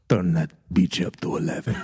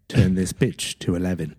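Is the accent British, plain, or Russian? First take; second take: Russian; British. First: It is said in a Russian accent. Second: It is said in a British accent.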